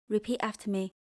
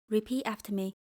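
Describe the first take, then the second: The two takes are said the same way.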